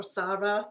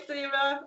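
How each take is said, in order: First: Sarah with an open ah, like SAH-ruh; Sarah with the first vowel of "father"; alternative pronunciation of Sarah. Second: Sarah rhyming with Clara as in "Claire-uh"; first pronunciation of Sarah. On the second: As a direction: say Sarah as SAIR-uh. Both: Shown as a demonstration. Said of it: "or Sarah".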